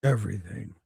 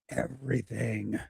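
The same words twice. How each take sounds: First: It is said in a deep Thanos impression. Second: It is said in his normal voice.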